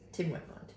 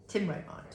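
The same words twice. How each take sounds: First: Whispered aside. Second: Said in the usual way. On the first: Shown as a demonstration. Whispering to the dog that Tim won't mind. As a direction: breathe it with no voice. Same words repeated unvoiced.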